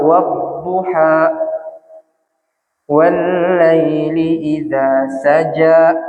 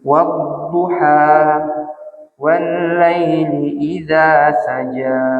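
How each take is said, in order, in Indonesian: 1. Vokal akhir dipotong mendadak dengan hentian. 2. Vokal akhir memudar perlahan mengikuti hembusan napas. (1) "Itu saya paksakan untuk habis. Seolah-olah ada hamzahnya di situ" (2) "biarkan hawanya habis dengan sendirinya"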